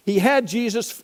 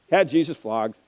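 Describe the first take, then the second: First: "had" lifted high and held; stress on had. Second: "Had" weighted at the start; stress on had. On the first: Preacher stressing "had" to the congregation. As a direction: lean hard on the word "had". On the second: Preacher repeating "Had" for the congregation's weight. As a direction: land on "Had" with gravity. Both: Shown as a demonstration. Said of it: "that one little word carries incredible impact".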